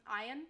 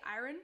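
First: Said in the usual way. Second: American 'iron' with a pronounced R; American accent. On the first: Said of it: "they either say iron". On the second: Shown as a demonstration. Showing chat how Americans say it, American accent. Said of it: "American people say it".

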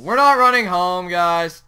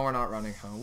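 First: Raised-voice reversal; emphatic announcement. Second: Low, soft admission; subdued, low reversal; resigned decision. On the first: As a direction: announce it firmly to the viewers. Repeats reversal loudly to viewers. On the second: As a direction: say it quietly to yourself. Changes his mind. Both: Real, not acted.

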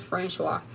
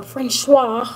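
First: Said in the usual way. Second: Francois drawn out slow and loud, with flair; extra Francois. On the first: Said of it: "you gotta be extra when you say it". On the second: Shown as a demonstration. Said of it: "I like saying it like that".

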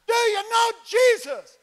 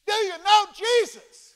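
First: Even higher, slow, loud repeated yell; repeated louder shout. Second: Loud, high, slow shout over plane noise; shouting over engine. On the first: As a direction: shout it again over the engine noise. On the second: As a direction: yell it over the roaring engine. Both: Retold or imitated. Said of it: "See, it's loud in there".

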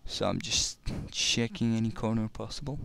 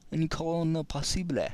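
First: Said in the usual way. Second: Playful mock French accent on "Any corner possible", lifted high; light mock French accent, a bit higher; little French accent. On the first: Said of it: "I just felt like saying it in a little French accent". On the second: Shown as a demonstration. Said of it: "saying it in a little French accent".

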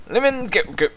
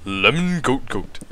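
First: Said in the usual way. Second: "lemon goat goat" said slow with a deep throaty sound; "lemon goat goat" growled low in the throat, slowly. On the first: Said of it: "Welsh accent". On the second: Shown as a demonstration. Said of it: "Deep throaty sound".

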